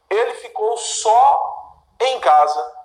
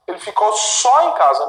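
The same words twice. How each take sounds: First: "só" drawn out, pause before "em casa"; stress on só. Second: "só em casa" run together at normal pace; stress on só em casa. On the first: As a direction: say "só" slowly, set apart to mean alone. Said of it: "Isto é, ele ficou sozinho em casa". ("só" alongado, com pausa depois, no sentido de sozinho) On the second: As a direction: link "só" straight onto "em casa" to mean only there. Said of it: "posso entender também que ele ficou apenas em casa". ("só em casa" dito junto, sem pausa, no sentido de apenas) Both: Shown as a demonstration.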